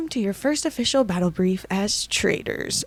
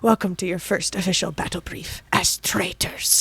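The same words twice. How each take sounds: First: It is said in her normal plain voice. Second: It imitates the host's accent, rolling the R.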